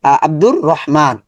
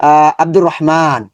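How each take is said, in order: The two takes are said the same way.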